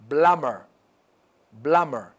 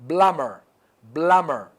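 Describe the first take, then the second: Both takes have the same delivery.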